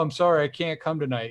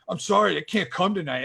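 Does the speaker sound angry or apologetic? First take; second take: apologetic; angry. First: It is said in a mild, apologetic tone. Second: It is said in a curt, angry tone. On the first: The writer is simply sorry they cannot come. The speaker calls it right. "they might just be like" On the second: The writer is upset with the reader. The speaker calls it wrong. "you're making it sound like they're mad at you"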